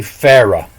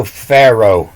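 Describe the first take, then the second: First: "Pharaoh" with its closing W sound dropped; Pharaoh without W. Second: Said in the usual way. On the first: Shown as a demonstration. Teacher showing Pharaoh without a W sound, altered pronunciation. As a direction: say "Pharaoh" with no W glide in the last syllable. Shows the word lacking W sound.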